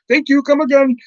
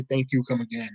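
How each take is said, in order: First: High, singsong mock Indian accent; exaggerated Indian-accented farewell. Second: Said in the usual way. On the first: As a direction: chirp it in a comic Indian accent. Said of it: "generic Indian character". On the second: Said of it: "we had to say".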